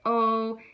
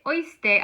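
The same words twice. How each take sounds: First: Oíste split as a drawn-out o, then a stressed EES-te; separated vowels. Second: Oíste with the oí run together like "oy"; wrong diphthong pronunciation. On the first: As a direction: break oíste between o and í, stressing the í. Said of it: "I wanna say oíste". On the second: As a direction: say oíste in two syllables, OYS-te, without stressing the í. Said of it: "I don't wanna say". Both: Shown as a demonstration.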